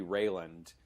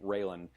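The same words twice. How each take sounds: First: Raylan ending in a slipped-in D; stray final D. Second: Said in the usual way. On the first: Real, not acted. Podcaster slipping on the name Raylan, added final D. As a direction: say Raylan as if it ended "-land". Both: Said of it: "just put a D on the end".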